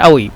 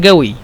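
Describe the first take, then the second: First: The word starts with a glottal stop. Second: The word starts with a voiced g-like sound. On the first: "দুইভাবে বলতে পারেন" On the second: "কফকে সবসময় মিশরীরা হামজা বা গয়ন বলে"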